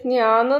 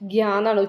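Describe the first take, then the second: First: The syllable is pronounced the Malayalam way. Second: The syllable is pronounced the Hindi way. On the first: The speaker calls it wrong. "ഇത് ജ്ഞാന്ന് നമ്മൾ ഉച്ചരിക്കുക" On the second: The speaker calls it right. "ഹിന്ദിക്കാരെ എങ്ങനെ ഉച്ചരിക്കുക? ജ്ഞാന്നല്ല"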